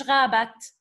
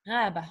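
First: غابت ending on a hard t; sounded t ending. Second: غابة ending on a soft h, no t; silent ending. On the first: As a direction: say غابت with the final t pronounced. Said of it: "مش". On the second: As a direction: say غابة with the last letter silenced to h. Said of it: "مش غابت". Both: Shown as a demonstration.

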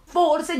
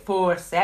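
First: Forse punched high and loud; stress on forse. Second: Forse dropped low and drawn, heavy irony; low sarcastic forse. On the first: Narrator sarcastically insisting on the obvious, forse stressed high. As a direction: hit forse hard and high. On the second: Narrator repeating forse to the viewers, low ironic stress. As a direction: let forse fall low and knowing. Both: Shown as a demonstration. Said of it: "dico forse".

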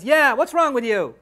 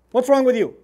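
First: Loud little-sister echo of dad's scolding; imitated child butting in loudly; youngest daughter chiming in. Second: Loud, upset dad telling off his daughter; mock-stern parental outburst; upset father scolding. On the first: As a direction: pile on, copying the parent's telling-off. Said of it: "my youngest daughter, Iman, comes along". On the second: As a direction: scold loudly, like an exasperated parent. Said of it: "I'm upset".

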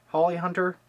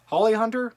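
First: Said in the usual way. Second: Holly Hunter? asked up high, doubting the name; questioning. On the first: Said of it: "is her name Bonnie Hunter". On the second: Shown as a demonstration. Vlogger double-checking the actress name, unsure. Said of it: "Just go with me".

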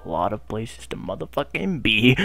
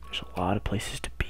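First: Said in the usual way. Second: Soft whisper, almost voiceless; whispered first take; whispered awe. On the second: Real, not acted. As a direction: hush it out in wonder. Awed at the map.

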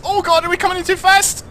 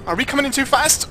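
First: Much higher, louder panicked cry. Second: High worried question; alarmed. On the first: Streamer shrieking at his lander, panicked and loud. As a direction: shriek it in real alarm. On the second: Streamer asking viewers, alarmed and high. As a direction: ask it anxiously, voice climbing. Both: Real, not acted.

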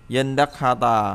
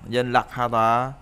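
First: "Dân đắc ha tà" with n then d, like yen-dak; before sound change. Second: "dân đắc ha tà" with an l sound, like yal-lak; after sound change. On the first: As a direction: say "Dân đắc" with a hard d after the n. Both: Shown as a demonstration. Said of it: "mới thành là dân đắc".

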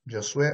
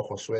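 First: "Josué" with an initial Y glide, yo-SWE; "Josué" begun as "Yo-", stressed on the last syllable; Y-sound pronunciation. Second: "Josué" with a Spanish J, ho-SWE; "Josué" begun as "Ho-", stressed on the last syllable; Spanish J pronunciation. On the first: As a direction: say the J of "Josué" like English Y. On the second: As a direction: start "Josué" on a throat-made H sound. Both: Real, not acted. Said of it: "de repente lo estoy pronunciando mal".

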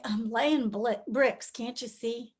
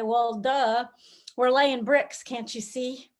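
First: Slow, worn-out mumble; weary sigh of a line. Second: A mildly irritated, dismissive brush-off; mock annoyance at an obvious question; annoyed worker. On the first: Acted. On hard days we just say it, slow and worn out. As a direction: say it like you're barely getting through the day. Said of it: "all we can do to just sort of say". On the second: Worker interrupted at his bricks, a touch annoyed. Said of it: "might just be a little annoyed".

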